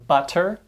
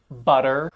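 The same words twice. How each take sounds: First: The middle consonant is a crisp, true T. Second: The middle consonant is a soft, fast D-like tap. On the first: "many students will say words like" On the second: "Instead, we say"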